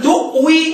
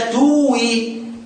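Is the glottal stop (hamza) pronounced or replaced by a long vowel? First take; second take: pronounced; replaced. First: A glottal stop is pronounced in the middle. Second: The glottal stop becomes a long vowel instead. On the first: The speaker calls it right. "تنطق الكلمه مهموزه" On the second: The speaker calls it wrong. "تنطقها مبدله"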